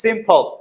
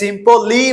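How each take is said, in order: First: The word ends in a plain l sound. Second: The word ends with an added vowel sound. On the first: The speaker calls it right. "বলছি সিম্পল" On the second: The speaker calls it wrong. "আমরা সিম্পলি বলতেছি না"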